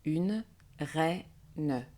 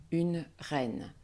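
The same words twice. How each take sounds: First: Une reine split into syllables, drawn out; slow classroom breakdown of Une reine. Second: Said in the usual way. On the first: Shown as a demonstration. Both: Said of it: "Je syllabe".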